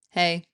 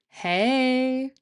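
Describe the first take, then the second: First: It is flat and sounds low in energy. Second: It is drawn out and sounds playful. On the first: The speaker is not feeling energetic. "if you're not feeling very energetic, you could say it like" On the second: The speaker feels playful. "You could make it longer, which makes it more playful, like this"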